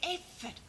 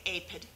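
First: The middle sound is an 'f' sound. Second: The middle sound is a 'p' sound. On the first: The speaker calls it right. "we say aphid" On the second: The speaker calls it wrong. "we don't say aphid"

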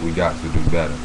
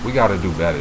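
First: It is said in a put-on imitation voice. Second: It is said in the speaker's normal voice.

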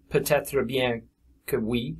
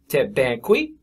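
First: The opening word is said in full. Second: The opening word is clipped to one syllable. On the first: "it's not pronounced peut-être bien que oui" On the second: "It's also tête bien que oui"

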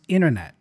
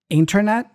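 First: The T after N is dropped. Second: The T after N is pronounced. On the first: "that T tends to go away" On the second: "Internet becomes"

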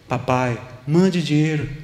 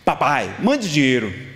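First: It sounds gentle and affectionate. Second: It sounds rude and demanding.

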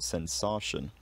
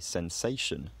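First: The stressed vowel has a Romance-language sound. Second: The stressed vowel has the English long sound. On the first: "not sensation" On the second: "We say sensation"

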